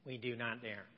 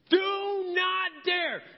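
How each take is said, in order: First: It is said in a weak, timid voice. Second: It is said in a bold, cocky voice. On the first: The speaker calls it wrong. "I don't think Paul was using a wimpy voice that I just used" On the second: The speaker calls it right. "he is doing it with a cockiness so great that he's like this"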